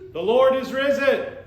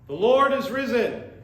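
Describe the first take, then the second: First: It is said with more enthusiasm and energy. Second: It is said with ordinary, lower energy.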